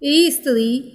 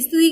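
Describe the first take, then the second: First: An extra vowel is added before the cluster. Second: The word begins directly with the consonant cluster. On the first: The speaker calls it wrong. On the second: The speaker calls it right.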